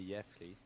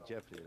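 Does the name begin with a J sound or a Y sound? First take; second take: Y sound; J sound. First: The name starts with a Y-like sound. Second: The name starts with an English J sound. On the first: This is the Dutch way the name is said. The speaker calls it wrong. "Dutch say Jeffrey. I don't like that" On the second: This is the English way the name is said. The speaker calls it right. "Like you would call me Jeffrey, right? That's normal to to Brit English speakers"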